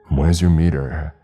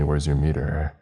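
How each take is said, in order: First: It is yelled loudly. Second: It is said firmly at normal loudness. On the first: Growing anger after getting no reply. "this time yelling" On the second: A stern first request for an answer. "in a stern voice"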